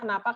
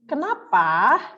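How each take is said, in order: First: It is said flat, without a questioning intonation. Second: It is said with a questioning intonation. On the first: The speaker calls it wrong. "kalau kamu ngomongin nggak pakai titik koma" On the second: The speaker calls it right. "Pakai tanda tanya, ada nadanya"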